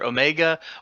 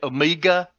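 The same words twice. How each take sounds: First: It is said in the speaker's usual accent. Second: It is said in an Australian accent.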